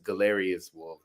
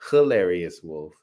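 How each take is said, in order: First: The name begins with a hard G sound. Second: The name begins with an H sound. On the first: The speaker calls it wrong. "what we both said as Galerius Wolf" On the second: The speaker calls it right. "it's pronounced hilarious wolf, like Gila monster"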